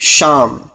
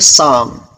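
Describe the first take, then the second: First: The word begins with an 'sh' sound. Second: The word begins with an 's' sound. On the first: The speaker calls it right. "जो चीज़ शीन से कही जाती है" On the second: The speaker calls it wrong. "कई इलाकों के अंदर शीन को सीन पढ़ा जाता है"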